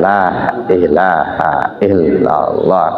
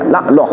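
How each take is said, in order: First: Every syllable of the phrase is said clearly. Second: The phrase is clipped, with syllables dropped. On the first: The speaker calls it right. "Harusnya kan la ilaha illallah. Kan jelas tartil" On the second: The speaker calls it wrong. "hilang hurufnya"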